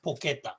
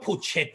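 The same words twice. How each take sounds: First: Porchetta with a hard K, "por-KET-ta"; correct pronunciation. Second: Porchetta as spelt, "por-CHET-ta"; spelling pronunciation. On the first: Explaining the Italian dish's name, porchetta with hard K. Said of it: "but it's pronounced porchetta". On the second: Explaining the Italian dish's spelling, porchetta with CH. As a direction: sound the ch in porchetta as in chair. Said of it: "So it's spelt porchetta". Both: Shown as a demonstration.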